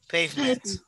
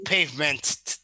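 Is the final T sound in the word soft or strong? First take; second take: soft; strong. First: The final T sound is soft and almost silent. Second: The final T sound is strong and clearly released. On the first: The speaker calls it right. "Just, like, soft. ... very soft. It's kind of like pretty much silent, not totally" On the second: The speaker calls it wrong. "So it's not like you're going to say, like, pavement. No"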